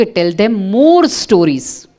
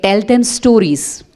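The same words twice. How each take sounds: First: "Tell them more stories" very slow, "more" leaned on and falling; patient sage repeating, weight on more; stress on more. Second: "Tell them stories" drawn out slowly, stress on them; slow, deliberate quoted wisdom; slow weighty answer. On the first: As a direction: hit more, slow and calm. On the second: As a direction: deliver it very slow, like a sage. Einstein's reply, slow. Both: Retold or imitated.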